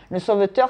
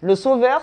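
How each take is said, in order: First: "sauveteur" said clearly, all four syllables, rising; contrasting sauveteur with sauveur for viewers; stress on sauveteur. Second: "sauveur" pitched up and louder, rising; stress on sauveur. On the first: Explaining to viewers, stress on "sauveteur". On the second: Contrasting the two words for viewers, punched "sauveur". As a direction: set "sauveur" against sauveteur. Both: Shown as a demonstration. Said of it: "entre le sauveur et le sauveteur".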